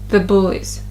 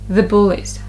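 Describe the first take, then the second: Both takes have the same delivery.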